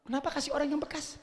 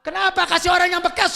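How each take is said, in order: First: Soft, fast, almost under the breath; hushed, rapid musing; quiet question. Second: Loud, quick, higher rebuke; indignant preacher's shout; shouted question. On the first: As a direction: ask it quietly to yourself first. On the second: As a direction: fire the question at the crowd. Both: Shown as a demonstration.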